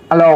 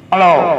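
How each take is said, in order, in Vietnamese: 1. Giọng nói nghe khô, không có tiếng vọng. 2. Giọng nói có hiệu ứng vọng vừa phải. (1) "mình dặn tuốt xuống là cái tiếng nói của mình nghe bình thường" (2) "đẩy anh cho lên phân nửa nó sẽ có nè"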